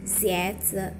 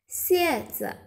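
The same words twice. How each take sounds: First: "Xieze" starting low with a rising first syllable; second tone. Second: "Xieze" starting high and falling. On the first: Teacher giving Mandarin for shoes, second-tone rising "Xieze". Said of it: "nada dua ya". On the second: Teacher giving Mandarin for scorpion, high falling "Xieze". Contrasting tones of two look-alike words. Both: Shown as a demonstration.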